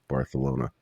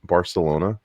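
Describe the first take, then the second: First: The c is said like a th. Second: The c is said like an s. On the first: The speaker calls it wrong. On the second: The speaker calls it right.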